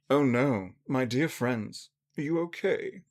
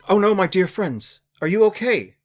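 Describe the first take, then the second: First: It is said in a poised, toned-down way. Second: It is said in a loud, panicked scream.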